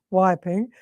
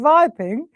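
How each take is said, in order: First: Said in the usual way. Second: "viping" with a V at the start; high, punched "viping" with opening V; German V for W. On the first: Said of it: "So we went from viping". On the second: Retold or imitated. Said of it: "we went from viping".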